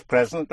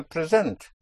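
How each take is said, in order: First: "present" stressed on PRE; strong PRE, weak second syllable in "present"; first-syllable stress. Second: "present" stressed on SENT; second-syllable stress. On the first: Teacher explaining that context decides, "present" stressed on PRE. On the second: Teacher explaining that context decides, "present" stressed on SENT. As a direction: put the weight on SENT in "present". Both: Shown as a demonstration. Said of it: "Only in context will you know".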